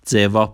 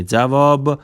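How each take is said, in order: First: "جواب" said the Turkish way, "jevap", ending on p; Turkish pronunciation. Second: Said in the usual way. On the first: Shown as a demonstration. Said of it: "جواب به معنی جواب". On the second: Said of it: "به معنی جواب".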